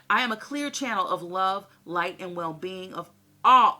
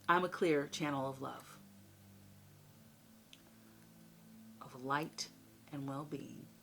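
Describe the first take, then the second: First: It is said fast. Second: It is said slowly.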